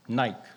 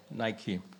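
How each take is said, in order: First: It is one syllable, rhyming with bike. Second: It is two syllables, rhyming with spiky. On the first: "Some people say you say Nike, like bike" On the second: "most commonly it's called Nike"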